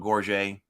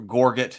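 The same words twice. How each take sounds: First: It is pronounced the French way. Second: It is pronounced the English way. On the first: "instead of" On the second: "English pronunciation"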